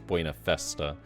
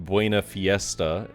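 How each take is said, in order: First: The second word has a plain 'e' vowel. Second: The second word has an 'ie' vowel sound. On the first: The speaker calls it right. "but it's Buena Festa" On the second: The speaker calls it wrong. "I also got corrected on"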